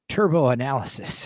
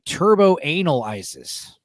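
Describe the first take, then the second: First: It is said as the single word analysis. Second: It is split into two words, anal and ISIS.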